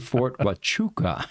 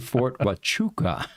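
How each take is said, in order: First: The name is pronounced the way locals say it. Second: The same.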